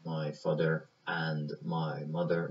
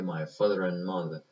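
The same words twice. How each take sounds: First: Very slow, "my father and my mother" with every word clear; careful and full. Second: "my father and mother" quicker, with "and" reduced to n; native style. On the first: Teacher showing the textbook careful version. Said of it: "به جای اینکه بیاد بگه". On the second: Teacher showing how a native really says it. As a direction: let "and" shrink to "n" in "my father and mother". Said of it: "میگه". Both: Shown as a demonstration.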